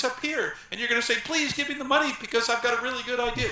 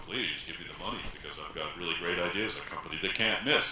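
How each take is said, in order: First: High, loud, pleading squeak; nervous pitch pushed up to the top. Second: Low, in charge. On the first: Nervous founder pitching venture capitalists, voice pushed high. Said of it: "You're gonna be nervous". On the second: Founder pitching venture capitalists from the low range, in charge. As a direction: lower pitched, brisk confident pitch. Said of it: "if instead you say". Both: Shown as a demonstration.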